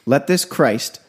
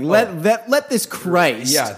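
First: It is read in a plain, neutral tone. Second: It is read in a mocking, sarcastic tone.

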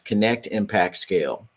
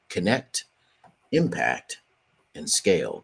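First: It is said at a normal pace. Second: It is said more slowly.

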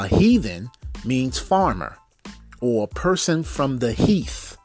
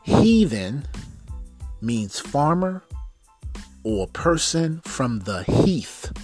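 First: It is said at a normal pace. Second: It is said slowly and deliberately.

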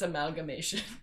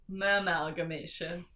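First: The first syllable is said in the ordinary way. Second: The first syllable sounds like the word 'ma'am'. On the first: "I know that it's amalgamation" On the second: "I just wanted to say it like that"

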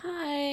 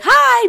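First: It is said quietly and briefly. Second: It is said loudly and boldly.

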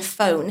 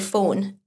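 First: The vowel is in a neutral accent. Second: The vowel is in the speaker's regional accent. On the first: The speaker calls it right. "rather than phone" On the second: The speaker calls it wrong. "I say phone"

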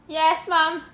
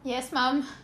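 First: It is said loudly. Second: It is said quietly.

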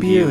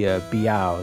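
First: The name ends with an 'oo' sound. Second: The name ends with an 'ow' sound. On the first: This is how the name is usually heard. The speaker calls it right. "Yuen Biu is usually how I hear it" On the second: This follows the romanized spelling. The speaker calls it wrong. "it looks like it would be Biao, the way it's sort of Romanized"

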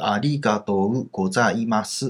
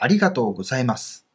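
First: Each syllable is said separately, one by one. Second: It is said as one smooth flowing phrase.

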